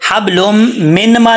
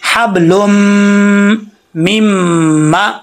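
First: The n is pronounced separately before the m. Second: The n merges into a doubled m sound. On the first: The speaker calls it wrong. "हब लुम मिन मा नहीं पढ़ेंगे, मिन मा पढ़ेंगे तो गलत हो जाएगा" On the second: The speaker calls it right. "मीम जबर मा मीमा"

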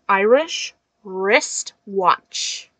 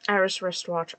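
First: It is said slowly with careful articulation. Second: It is said quickly with little articulation. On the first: "I have to like over pronounce because it's so hard" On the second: "Especially doing it, like, really fast"

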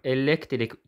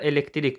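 First: The stress is on the second syllable. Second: The stress is on the third syllable. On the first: "ikinci hecəyə düşə bilər" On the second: "üçüncü hecəyə düşə bilər"

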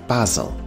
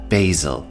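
First: It is said with a British English pronunciation. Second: It is said with an American English pronunciation. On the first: "In British English, it is pronounced basil" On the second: "this is American English pronunciation"

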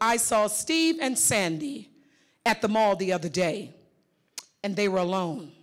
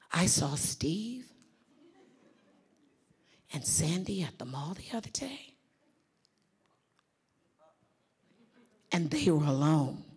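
First: The sentence is said in a plain, neutral tone. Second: The sentence is said in a knowing, insinuating tone. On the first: Nothing unusual happened between them. "Simply by the tone, you're not thinking too much of it" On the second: Something improper may be going on between them. "But if I did this, check this out"

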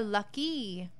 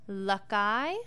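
First: The word ends in an 'ee' sound. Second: The word ends in an 'eye' sound. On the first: The speaker calls it right. "l, a, k, e" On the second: The speaker calls it wrong. "L, a, k, I"

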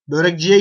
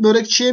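First: The suffix begins with a voiced j sound. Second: The suffix begins with a voiceless ch sound. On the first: The speaker calls it wrong. "Börekciye gittim. Mi dersin?" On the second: The speaker calls it right. "C burada Ç'ye dönüşmüş"

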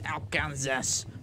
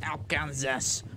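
First: The word is sounded out as it is spelled. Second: The same.

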